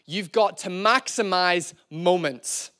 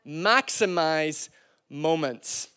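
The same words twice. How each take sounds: First: Said in the usual way. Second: Slow and soft, each word weighted; drawn-out quiet echo of the point; slow emphatic repeat. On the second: Shown as a demonstration. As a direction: let the phrase sink in slowly. Preacher repeats key phrase.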